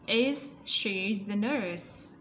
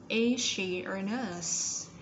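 First: Slow, with the Z in "Is" sounded out; slow model question. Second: Slow, "Is" joined into "she" with an S sound; slow model question. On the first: Teacher modelling the question for pupils to copy, slow. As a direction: read "Is she the nurse?" very slowly. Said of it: "Z ending sound". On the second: Teacher modelling the linked sound, very slow. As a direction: say "Is she a nurse?" slowly, "Is" blending into "she". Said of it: "S ending sound". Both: Shown as a demonstration.

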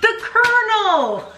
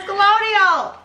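First: The Colonel! said KER-nul, laughing and high; correct Colonel. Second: Colonial! mocked as kʰəloʊ̃niəl, high and laughing; Colonial, stretched into four syllables; mocking mispronunciation. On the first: Shown as a demonstration. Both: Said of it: "She thinks Colonel's Colonial!".

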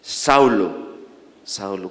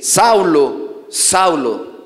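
First: Low, falling call that fades to very soft; hushed, fading divine summons; voice from heaven. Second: Slow, drawn-out call of the name, falling; a solemn divine summons, lightly voiced; voice from heaven. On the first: Acted. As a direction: repeat the name low, letting it die away. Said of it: "dos veces su nombre". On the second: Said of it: "oyó una voz que le decía".

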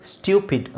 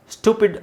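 First: ಸ್ಟ್ಯೂಪಿಡ್ as "styoo-pid". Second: ಸ್ಟುಪಿಡ್ as "stoo-pid", no glide. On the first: Teacher gives second option ಸ್ಟ್ಯೂಪಿಡ್, gliding "styoo". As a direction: slip a y-glide into ಸ್ಟ್ಯೂಪಿಡ್. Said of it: "ಸ್ಟ್ಯೂಪಿಡ್ ಅಂತಲೂ ಹೇಳ್ಬೋದು". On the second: Teacher gives first option ಸ್ಟುಪಿಡ್, plain "stoo". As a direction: say ಸ್ಟುಪಿಡ್ without a y sound. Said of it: "ಸ್ಟುಪಿಡ್ ಅಂತಲೂ ಹೇಳ್ಬೋದು". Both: Shown as a demonstration.

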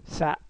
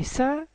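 First: "سا" cut short with an abrupt stop; said quickly. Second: Said in the usual way. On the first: Shown as a demonstration. Teacher showing pupils how Japanese is said fast, "سا" quick and short. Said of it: "لما يجي يقولوها بسرعة يقولوا". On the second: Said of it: "سا في الياباني لما".

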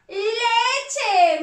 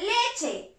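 First: "leche" stretched, high and loud; drawn-out reveal. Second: Said in the usual way. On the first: Shown as a demonstration. Teacher revealing "leche" to children, drawn-out reveal. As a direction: sing out "leche" with a long first syllable.

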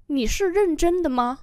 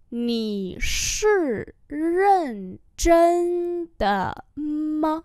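First: Said in the usual way. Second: Nǐ shi ren zhen de ma syllable by syllable; slow demonstration. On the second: Shown as a demonstration. Teacher repeats a question for learners, very slowly.

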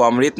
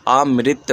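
First: अमृत read as plain "amrit" with a full r; wrong reading. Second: अमृत said "a-mri-t" with the ri sound; correct reading. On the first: Teacher showing pupils the wrong way, plain "amrit". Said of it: "इसको अमृत नहीं पढ़ेंगे". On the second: Teacher showing pupils the right way, "a-mri-t". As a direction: sound अमृत with a clear ri in the middle. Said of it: "बल्कि ये क्या हो जाएगा". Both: Shown as a demonstration.

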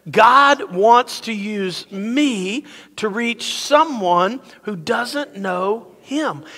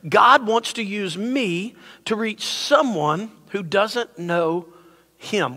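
First: Very slow, measured group-lead declaration; emphatic recitation. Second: Said in the usual way. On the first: Shown as a demonstration. Pastor leading everyone to say it together, emphatic and slow. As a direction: stretch each word so a crowd can join in. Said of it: "Say it like you mean it". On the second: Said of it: "This is the statement I want you to catch".

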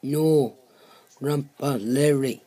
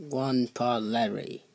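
First: Loud and clear, insisting. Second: Muffled as if through a wall. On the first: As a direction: correct the name, louder. Guest corrects his misheard name. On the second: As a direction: speak from behind a closed door. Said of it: "Can you actually speak up?". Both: Acted.

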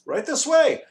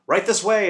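First: Very high, loud summons; calling out. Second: High, loud guide's call. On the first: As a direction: sing out to lead them on. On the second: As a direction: usher the group along loudly. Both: A narrator's reading. Guide calling the group onward.

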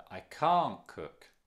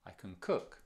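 First: Slow, with "can't" hit hard and louder; stress on can't. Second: Said in the usual way. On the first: Shown as a demonstration. Teacher contrasting can't with can, stressed can't. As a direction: punch "can't". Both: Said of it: "You see the difference?".

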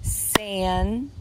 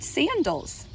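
First: "Sandals" slowly as San, dals; clap-along "Sandals", clear gap between syllables; split into syllables. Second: Said in the usual way. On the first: Shown as a demonstration. Teacher claps syllables with preschoolers, "Sandals" split in two. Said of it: "Let's clap the syllables". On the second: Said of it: "in the word sandals".

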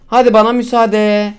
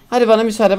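First: Slow, stretched sign-off to viewers; drawn-out farewell. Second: Said in the usual way. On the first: Real, not acted. Signing off to his viewers, slow and drawn out. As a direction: lean into the goodbye, stretching it out.

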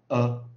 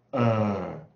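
First: 呃 as a short, loud schwa; 呃 cut short, higher and loud; central vowel. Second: 呃 stretched long and loud; drawn-out vowel. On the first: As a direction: punch out a brief neutral "uh" for 呃. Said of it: "转了中央元音". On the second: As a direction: hold the central "er" in 呃. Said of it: "拉延长". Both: Shown as a demonstration.

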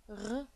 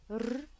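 First: "r." said in the throat like a French R; "r." as a guttural uvular French R. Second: "r" rolled like a Spanish trilled R; "r" trilled with the tongue tip, Spanish style. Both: Shown as a demonstration. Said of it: "we say something like".

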